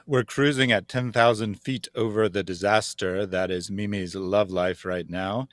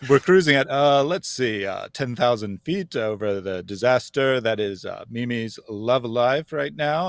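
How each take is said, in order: First: It is read smoothly without filler sounds. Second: It is broken up with hesitant filler sounds.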